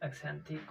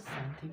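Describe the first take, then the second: First: The word begins with an 'eks' sound. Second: The word begins with an 's' sound. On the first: The speaker calls it wrong. "एक्सेंथिक को सैंथिक बोलेंगे" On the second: The speaker calls it right. "सैंथिक बोलेंगे"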